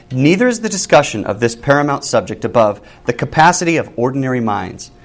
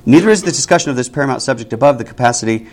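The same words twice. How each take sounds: First: Said in the usual way. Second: Brisk run through the sentence; quicker re-reading. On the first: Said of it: "That doesn't make sense". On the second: Real, not acted. Teacher rereading a confusing sentence to the class, quickened pace. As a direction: reread it faster to find the sense. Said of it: "you have to put the emphasis".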